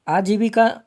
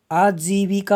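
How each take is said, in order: First: आजीविका at normal pace, vowels kept short; wrong form. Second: आजीविका slowed, long जी; correct form. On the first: Teacher rejecting a misspelling, आजीविका with short vowels. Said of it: "नहीं होता है". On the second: Teacher giving the correct spelling, आजीविका slow with long vowels. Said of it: "होता है". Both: Shown as a demonstration.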